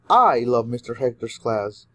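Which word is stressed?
I. The word I carries the main stress. Many people love it, but especially the speaker. "you're emphasizing that a lot of people love his class, but especially you"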